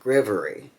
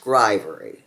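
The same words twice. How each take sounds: First: The vowel after 'gr' is not 'eye'. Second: The vowel after 'gr' sounds like 'eye'. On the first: The speaker calls it wrong. "not grivery" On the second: The speaker calls it right. "It's pronounced grivery ... Look at the word ivory"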